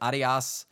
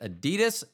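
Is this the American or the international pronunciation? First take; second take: international; American. First: It is pronounced the international way. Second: It is pronounced the American way. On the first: The speaker calls it right. "It's Adidas" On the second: The speaker calls it wrong. "I know I'm pronouncing that incorrectly"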